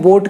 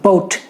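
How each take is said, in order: First: The 'b' is soft, with no burst of air. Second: The 'b' is released with a burst of air. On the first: "अब इसे India में बोट कहते हैं" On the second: "पहले तो बहुत सारी हवा ऐसे रोक के रखेंगे मुंह में और फिर उसका विस्फोट करेंगे"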